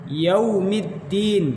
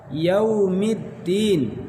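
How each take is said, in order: Both takes have the same delivery.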